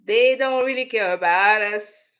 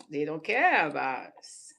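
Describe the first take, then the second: First: Louder, higher belted line; quoting the lyric loudly. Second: Said in the usual way. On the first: Retold or imitated. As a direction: belt the lyric out like a song hook. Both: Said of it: "[name] been telling us".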